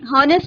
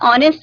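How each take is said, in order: First: The word begins with an audible h sound. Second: The word begins with a vowel, no h. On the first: The speaker calls it wrong. "हॉनेस्ट नहीं बोलेंगे बेटा" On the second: The speaker calls it right. "ऑनेस्ट बोलेंगे, एच silent रहता है"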